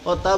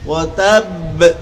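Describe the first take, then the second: First: The final b is short and not doubled. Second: The final b is held firmly and doubled. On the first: The speaker calls it wrong. "জজম যুক্ত হয়ে গেছে, তাসদিদটা আদায় হইল না" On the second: The speaker calls it right. "শক্ত করে বাটা শক্ত করে ধরে ছাড়তে হবে"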